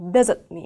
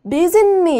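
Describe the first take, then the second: First: The words are slightly cut apart at the t. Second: The words run together with a nasal-like link. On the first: The speaker calls it right. "살짝 끊어주시는 게 좋아요. 어, visit me 이런 식으로요" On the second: The speaker calls it wrong. "visit me 이렇게 많이 하시거든요. N 사운드처럼 이렇게 그 자연스럽게 내시는데"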